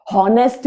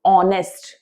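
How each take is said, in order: First: हॉनेस्ट with a clear h sound at the start; हॉनेस्ट spoken with the h, as learners wrongly say it; wrong pronunciation. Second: ऑनेस्ट with a silent h, starting on the vowel; ऑनेस्ट with the h dropped, as it should sound; correct pronunciation. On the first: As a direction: say हॉनेस्ट as hon-est, breathing the h. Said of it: "हॉनेस्ट नहीं होता है". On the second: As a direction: say ऑनेस्ट as on-est, no h at all. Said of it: "ऑनेस्ट सुनाई देता है". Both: Shown as a demonstration.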